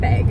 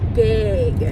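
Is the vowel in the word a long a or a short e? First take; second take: short e; long a. First: The vowel is a short e sound. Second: The vowel is a long a sound. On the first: This is how others claim the word is said. The speaker calls it wrong. "I don't ever say beg. ... No, no, no" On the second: This is how people from Minnesota say it. The speaker calls it right. "I say a long A"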